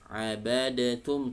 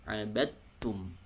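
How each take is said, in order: First: The d sound is released before the t. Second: The d sound merges fully into the t. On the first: The speaker calls it wrong. "misalnya abadatum, tidak" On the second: The speaker calls it right. "tapi langsung abadtum"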